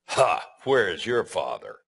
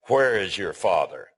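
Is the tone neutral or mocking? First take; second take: mocking; neutral. First: It is said in a sneering, mocking tone. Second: It is read in a plain, neutral tone.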